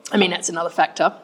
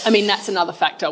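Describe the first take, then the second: First: Words broken by a swallow near the mic; swallowing mid sentence. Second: Said in the usual way. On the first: Real, not acted. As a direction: gulp mid sentence while speaking. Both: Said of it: "Sorry for my swallowing".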